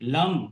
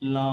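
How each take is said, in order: First: The final m is pushed out hard and forcefully. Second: The final m fades out softly and effortlessly. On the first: The speaker calls it wrong. "It's not like you call someone lum" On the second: The speaker calls it right. "It ends naturally, effortlessly with ma"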